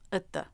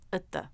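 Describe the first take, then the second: Both takes have the same delivery.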